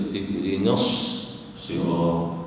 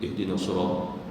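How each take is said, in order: First: Ihdinas sirat with a long hissed s and a break; firm model of ihdinas sirat, sad sustained; correct doubled sad. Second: Ihdinas sirat low and soft, single short s; low, soft wrong reading of ihdinas sirat; shaddah dropped. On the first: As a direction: hold the s of "ihdinas" before sirat. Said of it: "Mesti dibaca". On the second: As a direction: glide through "ihdinas sirat" without holding the sad. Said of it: "Lalu jangan dibaca". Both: Shown as a demonstration.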